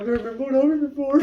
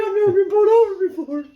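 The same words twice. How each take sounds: First: Higher, quick flustered blurt; lightly imitated tearful panic. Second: Very high, mock-distressed voice; imitated panicky whine. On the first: Sister answering the cop, mildly imitated flustered panic. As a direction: blurt it in mild mock distress. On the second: Sister to passengers after jumping out, imitated panic. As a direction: wail it in hammed-up panic. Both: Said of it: "He starts crying".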